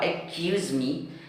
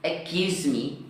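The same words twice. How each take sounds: First: The phrase is pronounced with distorted sounds. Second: The phrase is pronounced with distorted sounds.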